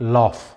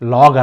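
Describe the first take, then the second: First: The word ends with an F sound. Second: The word ends with a G sound. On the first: The speaker calls it right. "జీహెచ్ని ఎఫ్ లాగా పలకాలి" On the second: The speaker calls it wrong. "లాగ్ అనకూడదు"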